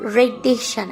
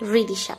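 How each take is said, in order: First: The first syllable has an 'e' vowel. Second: The first syllable has an 'i' vowel. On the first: The speaker calls it wrong. "রেদিশা না" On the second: The speaker calls it right. "রয় হিসিকারে রি"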